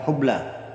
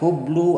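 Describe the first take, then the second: First: The word ends in an a vowel. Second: The word ends in a u vowel. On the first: The speaker calls it right. "huruf lamnya di situ berharokat fathah" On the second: The speaker calls it wrong. "Tidak boleh dibaca hublu"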